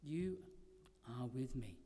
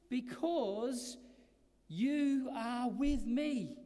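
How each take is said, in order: First: Softer and lower, "with" barely stressed; hushed repeat. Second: Slow, louder, stress on "with"; emphatic proclamation. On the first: Preacher repeating the promise softly to the congregation, hushed. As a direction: let "You are with me" fall to a near hush. Quiet repeat after pause. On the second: Preacher proclaiming God's presence to the congregation, slow and emphatic. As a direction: lean hard on "with" and let it ring. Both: Acted.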